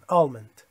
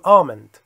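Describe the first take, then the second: First: The L sound is clearly pronounced. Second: The L sound is silent. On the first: "کسایی که در کالیفرنیا هستند شنیدم که این الشو میگن" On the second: "الشو نمیخونیم"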